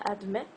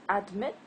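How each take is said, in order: Both takes have the same delivery.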